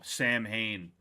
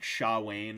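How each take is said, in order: First: It begins with 'sam' and has a clear 'h'. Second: It begins with 'sha' and has no 'h'. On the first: The speaker calls it wrong. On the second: The speaker calls it right.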